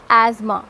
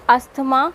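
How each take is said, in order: First: Asthma as az-ma; "asthma" said az-ma, th silent; correct asthma. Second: Slow, T and H sounded; "asthma" said as-tuh-ma; wrong asthma. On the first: Teacher modelling the word: az-ma. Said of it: "it's asthma". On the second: Teacher showing the mistake: slow as-tuh-ma. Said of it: "it's not asthma". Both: Shown as a demonstration.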